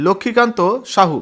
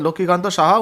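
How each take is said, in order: First: Surname read as সাহু, ending in a rounded u; first reading of the surname. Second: Surname corrected to সাহা, ending in an open a. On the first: Reading the candidate list aloud to viewers, surname read as সাহু. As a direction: say সাহু with a final u sound, before correcting it. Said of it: "অর্থাৎ Laxmikant সাহা". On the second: Correcting the candidate's surname for viewers, সাহা with a final a. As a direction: say সাহা with a clear final a, as the fix. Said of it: "অর্থাৎ". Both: Real, not acted.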